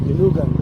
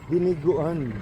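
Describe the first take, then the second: First: One middle syllable is dropped, so it's shorter. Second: Every syllable is said, so it's longer. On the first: "that's exactly what I heard" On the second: "but it's diniguan"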